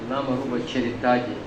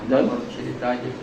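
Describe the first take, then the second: Both takes have the same delivery.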